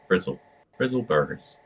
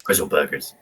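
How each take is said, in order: First: Bristol "Brizzle Burgers" with rolling r's, pitched up; Bristol accent retry. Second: Low, botched Bristol "Brizzle Burgers"; off-target Bristol accent. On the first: Working out a friend's accent, tentative Bristol burr. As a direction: have another go at broad Bristol. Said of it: "Trying to figure out how to say it". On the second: Teasing a friend from Bristol, fumbled Bristol accent. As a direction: attempt Bristol with heavy r's and miss. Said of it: "That's not the accent". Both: Shown as a demonstration.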